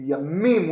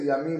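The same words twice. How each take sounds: First: The middle m sound is held longer. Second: The middle m sound is short. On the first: It means oceans. "with a mem, with a dagesh" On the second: It means days or years. "without stressing the mem"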